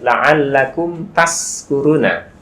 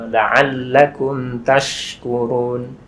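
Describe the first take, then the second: First: The verb has an 's' sound from tongue tip. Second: The verb has a 'sh' sound from mid-tongue. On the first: May you be among those who are drunk. The speaker calls it wrong. "Kalau misalnya nanti salah, ... dari ujung lidah keluarnya" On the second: May you be among those who are grateful. The speaker calls it right. "shin itu kan dari tengah lidah"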